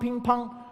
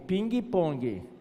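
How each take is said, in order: First: It is said with a Chinese accent. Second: It is said with a Brazilian Portuguese accent. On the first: "E o chinês é ping-pong" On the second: "A modalidade esportiva brasileira é ping-pong"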